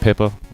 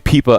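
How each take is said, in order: First: The first vowel is a short 'i' sound. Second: The first vowel sounds like 'ee'. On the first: "is it Pippa?" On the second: "anytime I see an I, it's like an E"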